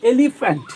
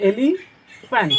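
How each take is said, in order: First: Said in the usual way. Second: elephant very slow and higher, cut as e-li, fant; syllable by syllable. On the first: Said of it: "ট্রাইসিলেবেল কি দেখো?". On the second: Shown as a demonstration. Teacher slashing the word for pupils, elephant slowly split. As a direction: slice elephant into beats with a clear gap. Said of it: "আমি যদি এটা slash করে দিই".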